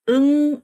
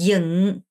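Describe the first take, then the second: First: The vowel is a closed 'eu' sound. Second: The vowel is a more open 'yeo' sound. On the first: The speaker calls it wrong. "응 하면 입을 다물어야죠. 이렇게 해야 되잖아요" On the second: The speaker calls it right. "근데 이게 아니라 얘가 조금 이렇게 벌려요"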